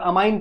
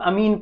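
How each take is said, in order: First: The second syllable sounds like 'ine'. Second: The second syllable sounds like 'een'. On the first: "कुछ लोग अमाइन pronounce करते" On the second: "कुछ लोग अमीन pronounce करते"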